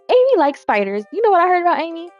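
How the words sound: It is said in a sassy put-on voice.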